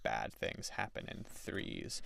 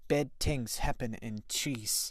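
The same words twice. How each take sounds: First: It is said in a plain, ordinary accent. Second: It is said in grandma's thick accent.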